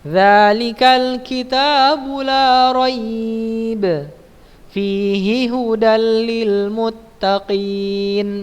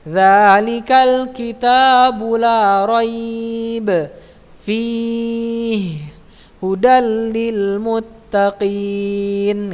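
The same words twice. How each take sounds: First: There is a single pause after la raib. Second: There are pauses after la raib and fihi.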